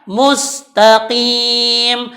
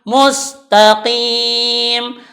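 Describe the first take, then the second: Both takes have the same delivery.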